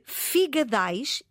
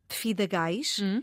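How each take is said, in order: First: The G sound comes before the D sound. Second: The D sound comes before the G sound. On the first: The speaker calls it right. "Deve ser figadais" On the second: The speaker calls it wrong. "e não fidagais"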